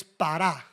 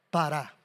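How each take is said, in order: First: Said in the usual way. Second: Pará with the stress on the final "rá"; stress on the second A. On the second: Shown as a demonstration. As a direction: say pará as pa-RÁ, clearly accented at the end. (pará, con acento en la segunda A) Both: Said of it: "con acento en la segunda A".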